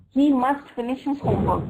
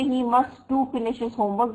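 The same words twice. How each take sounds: First: Said in the usual way. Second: "to" picked out after "must"; stress on TO. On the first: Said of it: "This is right". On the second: Shown as a demonstration. Teacher showing students a wrong sentence, stressing "to". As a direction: lean on the wrongly added "to". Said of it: "that would be wrong".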